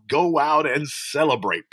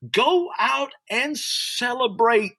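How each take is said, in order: First: Said in the usual way. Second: High, slow preached exhortation; preached call. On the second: Real, not acted. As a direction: stretch it out from the pulpit. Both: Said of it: "I wanna preach right now".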